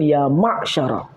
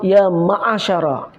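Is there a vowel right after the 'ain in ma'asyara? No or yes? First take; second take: no; yes. First: The 'ain closes the syllable with no vowel. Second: A vowel follows the 'ain before 'sya'. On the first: The speaker calls it right. "sebenarnya sebutan yang betul" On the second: The speaker calls it wrong. "itu ada baris"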